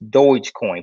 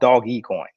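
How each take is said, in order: First: The first word has one syllable, like 'dohj'. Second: The first word has two syllables, like 'doggy'. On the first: This is how people say it now. The speaker calls it wrong. "People are saying Doge" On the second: This is what it was originally called. The speaker calls it right. "really it was called Doggy coin"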